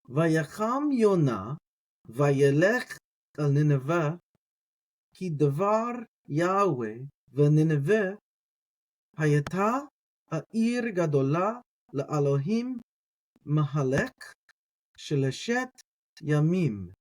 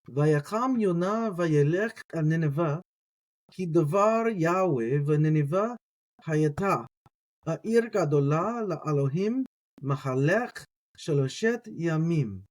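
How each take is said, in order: First: It is read at a slower pace. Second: It is read at a faster pace.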